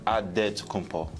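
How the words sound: It is said the Nigerian way, with a D.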